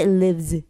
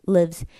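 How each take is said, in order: First: The final z sound is very heavy. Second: The final z sound is very light. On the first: "굉장히 무겁게 해주시는 경향이 있습니다" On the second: "굉장히 가벼운 z 발음인데"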